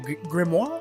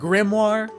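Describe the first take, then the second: First: The word has a French-style pronunciation. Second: The word has a plain English pronunciation.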